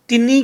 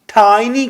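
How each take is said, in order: First: The first vowel sounds like 'ee'. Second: The first vowel sounds like 'eye'. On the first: The speaker calls it wrong. "टिनी कहने की बजाय" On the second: The speaker calls it right. "हमने टाइनी टाइनी कहना सीखना है"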